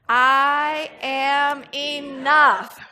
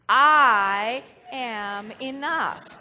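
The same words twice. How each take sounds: First: The word enough carries the stress. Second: The word I carries the stress. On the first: "and then we're going to put the emphasis on enough" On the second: "we're going to put the emphasis on I"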